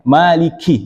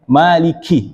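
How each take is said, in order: First: The k sound has too much air. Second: The same.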